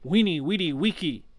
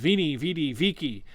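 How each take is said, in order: First: Each word starts with a W sound. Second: Each word starts with a V sound. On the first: "and it's actually" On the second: "which is Vini, Vidi, Vici"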